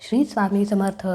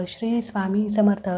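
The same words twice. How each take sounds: No difference in how they are said.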